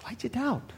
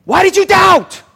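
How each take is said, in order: First: Very soft, hushed gentle question; private aside. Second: Loud, high scolding shout. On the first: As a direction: ask him quietly, just between you two. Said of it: "just a little bit privately". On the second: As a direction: berate him at full voice. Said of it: "Jesus is scolding him". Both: Acted.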